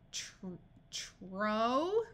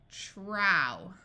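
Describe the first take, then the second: First: The vowel is a long 'oh' sound. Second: The vowel is an 'ow' sound. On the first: "I usually do the O" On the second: "then the ow sound"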